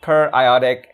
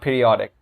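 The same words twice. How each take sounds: First: It is said as per plus iodic. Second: It is said like the word period. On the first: The speaker calls it right. "we should pronounce it periodic" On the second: The speaker calls it wrong. "and not periodic"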